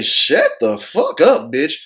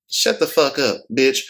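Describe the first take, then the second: First: It is said harshly and forcefully. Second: It is said softly and subtly. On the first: "you see how different that is right there?" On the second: "That's subtle"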